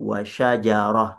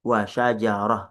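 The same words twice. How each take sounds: No difference in how they are said.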